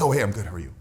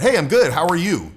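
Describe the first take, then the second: First: It is said in a timid, hesitant way. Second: It is said at a confident, normal volume.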